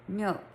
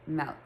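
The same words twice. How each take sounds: First: "milk" with a short i, as in "silk"; standard pronunciation. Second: "milk" with the vowel opened to "melk"; "malk" pronunciation. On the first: Trying to say it like everyone else, careful short-i "milk". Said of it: "if I try to say it like everyone else". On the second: Repeating what husband pointed out, "milk" said as "melk". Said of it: "I say it M A L K". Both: Shown as a demonstration.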